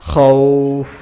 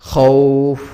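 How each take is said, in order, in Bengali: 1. শব্দটি দীর্ঘ টানা স্বরে থেমে যায়। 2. শব্দটি দীর্ঘ টানা স্বরে থেমে যায়।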